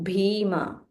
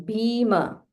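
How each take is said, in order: Both takes have the same delivery.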